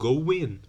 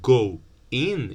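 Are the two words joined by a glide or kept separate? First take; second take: joined; separate. First: A w sound links the two words together. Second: The two words are said separately, without a glide.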